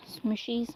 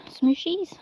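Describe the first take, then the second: First: "Smooshies" said with a soft "sh" sound, quieter; hesitant softer take on "Smooshies", "sh" not "ch"; second pronunciation try. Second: "Smoochies" said with a clear "ch" sound, rising as a question; unsure first try at "Smoochies", with a "ch" and a rise; trying a pronunciation. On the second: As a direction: test out "Smoochies" with a "ch", higher and unsure. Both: Shown as a demonstration. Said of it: "I'm not sure how to pronounce it".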